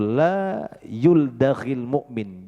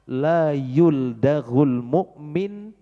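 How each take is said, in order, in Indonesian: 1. Kata kerjanya berakhir dengan vokal i. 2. Kata kerjanya berakhir dengan vokal u. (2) "bisa dibaca dhammah"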